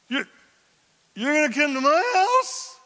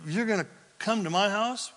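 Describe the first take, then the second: First: It is said in a high falsetto voice. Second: It is said in a normal speaking voice.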